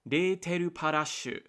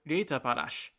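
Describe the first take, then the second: First: The name is read with Japanese syllables. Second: The name is read in a German-like way. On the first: "if I'm looking at the katakana" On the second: "it sounds German to me"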